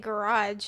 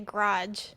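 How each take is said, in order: First: The first syllable is said full and unhurried. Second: The first syllable is said quick and clipped. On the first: "I don't say garage" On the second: "I say garage"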